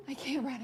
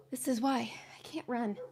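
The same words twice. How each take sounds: First: Said in the usual way. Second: Whispered, still winded; breathless whisper. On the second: Real, not acted. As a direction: gasp it out without voice. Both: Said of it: "I'm so unathletic".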